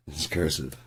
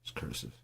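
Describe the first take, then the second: First: Said in the usual way. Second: "It's cursive" breathed without voice; whispered "cursive". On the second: Shown as a demonstration.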